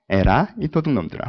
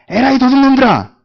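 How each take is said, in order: First: It is said softly and gently. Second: It is shouted loudly and forcefully.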